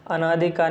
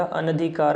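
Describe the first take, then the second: First: अनाधिकार said with a long aa after na, anaadhikaar; wrong form said aloud. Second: अनधिकार said with a short a after na, anadhikaar; correct form said aloud. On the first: Teacher showing the incorrect word, long aa. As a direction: say अनाधिकार stretching the second vowel. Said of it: "नहीं होता". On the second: Teacher giving the correct word, short a. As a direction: say अनधिकार with a short second vowel. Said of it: "होता है". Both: Shown as a demonstration.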